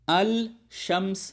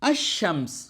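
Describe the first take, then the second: First: The l sound is pronounced before shams. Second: The l merges into a doubled sh sound. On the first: The speaker calls it wrong. "अल शम्स नहीं" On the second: The speaker calls it right. "Hamza है वो सीधा जाकर पहले हर्फ के साथ टकरा गया"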